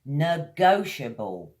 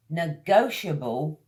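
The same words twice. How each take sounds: The two takes are said the same way.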